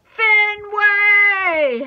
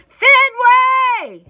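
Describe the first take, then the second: First: Long, high, loud call; drawn-out holler; yelling. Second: Full-force, high, drawn-out yell; very loud playful scolding; mock-angry scream. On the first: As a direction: yell the dog's name, stretching it out. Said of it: "Hattie yells". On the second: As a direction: scream the name, pretending to be mad. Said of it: "screams even louder, pretending to be mad and growly". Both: A narrator's reading.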